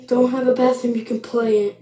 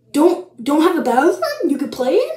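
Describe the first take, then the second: First: Said in the usual way. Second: Raised, swooping questioning read-back; incredulous. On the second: Real, not acted. Vlogger reading back a silly rule, incredulous. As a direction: echo it in disbelief, rising at the end. Repeats the instruction in disbelief.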